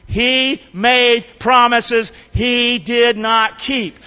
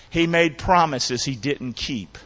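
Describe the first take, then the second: First: Slow, word-by-word emphasis; leading a recitation. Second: Said in the usual way. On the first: Shown as a demonstration. Preacher has congregation repeat the line, slow emphatic recitation. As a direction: space out each word for others to join. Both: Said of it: "say that with me".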